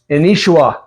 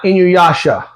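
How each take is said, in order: First: The name is pronounced the Japanese way. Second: The name is pronounced the English way. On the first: The speaker calls it right. "because I'm so used to the Japanese version when it says Inishua" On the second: The speaker calls it wrong. "not Inuyasha"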